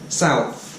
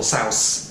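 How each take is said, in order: First: The word ends with a th sound. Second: The word ends with an s sound. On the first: The speaker calls it right. "bite your tongue, yeah, like this, and then make the F sound" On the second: The speaker calls it wrong. "be careful not to say north or south"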